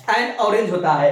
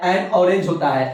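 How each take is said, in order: First: एन punched with a falling tune, orange said lighter; stress on an. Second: orange given the weight with a falling tune, एन said light; stress on orange. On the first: Teacher to students, pointing out the article एन. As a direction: hit the article एन, then carry on. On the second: Teacher to students, stressing orange in the example. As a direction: lean on orange and let एन pass quickly. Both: Shown as a demonstration. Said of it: "सबको पता है".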